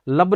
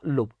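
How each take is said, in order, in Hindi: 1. स्वर एक खुली 'uh' ध्वनि है। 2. स्वर एक गोल 'u' ध्वनि है। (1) "लब नहीं" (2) "एल यू बी बोले तो लुब"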